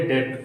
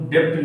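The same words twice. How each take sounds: First: "डेट" going straight from vowel to t; silent B. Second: "डेप्ट" with a p sound before the t; wrong pronunciation. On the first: Teacher drilling debt with students, silent B in "डेट". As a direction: say "डेट" with no b or p before the t. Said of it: "क्या बोलेंगे". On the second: Teacher showing the mistake in debt, sounded stop in "डेप्ट". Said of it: "डेप्ट नहीं". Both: Shown as a demonstration.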